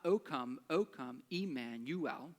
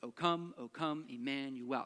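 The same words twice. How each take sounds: First: The beat falls on O, not on come. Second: The beat falls on come, not on O. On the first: The speaker calls it wrong. "It's not O come, O come, Emmanuel. That just doesn't sound like it works" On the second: The speaker calls it right. "It's always unstressed, stressed, unstressed, stressed"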